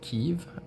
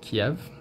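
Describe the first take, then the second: First: It is said in the newer, preferred way. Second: It is said in the older, traditional way. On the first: This is the form some people prefer today. "some people pronounce it Kiev" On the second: This is the form the speaker was taught. "the way that uh, traditionally I've pronounced it"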